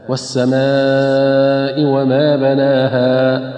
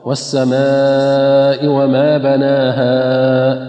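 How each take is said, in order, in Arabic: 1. المد الأخير يستمر حركتين فقط. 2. المد الأخير ممدود أكثر من حركتين. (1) "ففي حالة الوقف نقف هكذا" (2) "البعض يقف خطأ"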